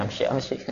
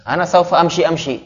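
First: The Arabized amshi repeated much softer, half to himself; softer mock echo. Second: Higher, playful parody of a student's half-Arabic; mock Arabized Indonesian. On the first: Teacher quietly repeating his mock of students' Arabic, softer. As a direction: murmur the parody again, amused. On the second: Teacher mocking students who speak Arabized Indonesian, playful parody. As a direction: tease the students by lifting the pitch on saufa. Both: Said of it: "tapi Indonesia diarabkan".

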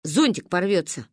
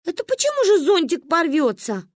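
First: Low, even statement; matter-of-fact verdict. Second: Put-on high-pitched, offended child's question; indignant challenge. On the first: Acted. Verdict explained, echoed by offended child. (спокойно, как приговор) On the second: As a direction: challenge it like an affronted kid. (возмущённо, высоким голосом)

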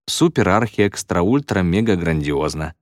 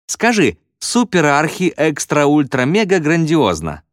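First: Said in the usual way. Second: High, drawn-out shout from the crowd; raised, stretched-out cry; calling out. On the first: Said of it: "выговорил Уилл". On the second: A narrator's reading. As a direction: shout the dare slowly, pitched high. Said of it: "крикнул ещё кто-то".

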